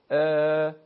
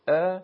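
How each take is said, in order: First: ا held loud and level for two beats; sustained two-beat Arabic ا; long alef madd. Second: ا as one short, loud beat; a quick single-beat Arabic ا; short fatha. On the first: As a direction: stretch ا into a long steady vowel. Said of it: "الف مدی به صورت". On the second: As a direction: say ا briefly, without stretching it. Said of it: "فتحه به صورت". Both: Shown as a demonstration.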